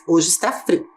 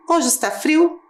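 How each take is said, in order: First: "Hoje está frio." with a falling, finished end; statement tune. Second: "Hoje está frio?" lifted high and rising at the end; question tune. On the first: Teacher repeating the statement with a full stop. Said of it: "ponto final. Acabou a frase". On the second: Teacher contrasting the statement with a question, rising. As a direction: ask "Hoje está frio?" with a clear rise. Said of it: "preste atenção no que eu vou dizer". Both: Shown as a demonstration.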